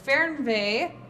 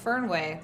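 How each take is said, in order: First: The second part begins with a V sound. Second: The second part begins with a W sound. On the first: "Is that am I saying that right?" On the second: "I always thought it was Fernway"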